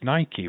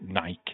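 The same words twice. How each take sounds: First: The brand name is said the American way. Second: The brand name is said the British way. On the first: "Americans always have used Nike" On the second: "in the U K, we call it Nike"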